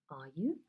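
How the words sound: The voice rises at the end.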